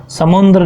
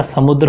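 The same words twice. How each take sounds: First: "समुद्र" said as samundar, with added n; wrong pronunciation. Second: "समुद्र" as sa-mud-ra, no n; correct pronunciation. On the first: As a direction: slip an n into "समुद्र", higher pitched. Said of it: "समुद्र नहीं होता". ("समुद्र" को समुंदर जैसा बोलना) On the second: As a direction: say "समुद्र" with a clean dr cluster. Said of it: "समुद्र होगा". ("समुद्र" का सही उच्चारण, बिना न के) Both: Shown as a demonstration.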